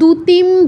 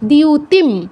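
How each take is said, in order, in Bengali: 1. এটি সাধারণ d ধ্বনি দিয়ে শুরু। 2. এটি d এবং y গ্লাইড দিয়ে শুরু। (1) "এগুলো বলা যাবে না" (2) "দ যুগ ইয় দিয়, এর সাথে উকার দিউ"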